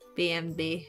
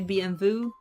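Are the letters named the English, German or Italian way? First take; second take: German; Italian. First: The letters are named with German letter names. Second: The letters are named with Italian letter names. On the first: "in German you say B M W" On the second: "In Italy we say B M W"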